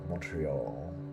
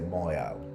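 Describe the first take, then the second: First: A light T sound is heard. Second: The T sound is left out. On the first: This is the English pronunciation. "the T is kind of there" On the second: This is the French pronunciation. "In French, you don't say the T"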